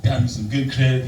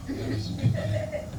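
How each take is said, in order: First: Said in the usual way. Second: "Got me some good credit" whispered, breathy and hushed. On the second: Shown as a demonstration. Comic telling the crowd a secret, in a whisper. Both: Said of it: "repeated line, plain then whispered".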